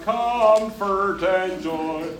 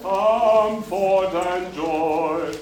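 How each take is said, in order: First: "comfort and joy" with a "cumfert" schwa ending; twangy "comfort", the "fort" swallowed; Texas comfort. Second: "Comfort and joy" stretched slowly, "fort" open and round; drawn-out "Comfort" with a clean "fort"; clear comfort and joy. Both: Shown as a demonstration. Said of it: "not comfort and joy".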